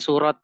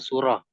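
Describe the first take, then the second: First: The word ends with a t sound. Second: The word ends with an h sound. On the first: The speaker calls it wrong. "jangan surat ya" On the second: The speaker calls it right.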